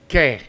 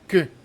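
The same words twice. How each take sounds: First: The vowel is a clear, tense 'e' sound. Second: The vowel is a neutral, relaxed schwa. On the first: The speaker calls it wrong. "not que" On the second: The speaker calls it right. "It's que like a schwa in English"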